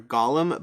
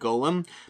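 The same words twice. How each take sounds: First: The word is pronounced the Hebrew way. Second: The word is pronounced the usual English way. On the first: This is the original-language form. "in Hebrew, it's more of a Golem" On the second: This is the form most people use. "typically people usually say Golem"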